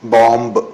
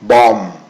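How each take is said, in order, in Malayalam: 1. അവസാന b ശബ്ദം ഉച്ചരിക്കപ്പെടുന്നു. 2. അവസാന b ശബ്ദം ഉച്ചരിക്കപ്പെടുന്നില്ല. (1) "എന്നല്ല" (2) "ബി സൈലന്റ് ആണ്"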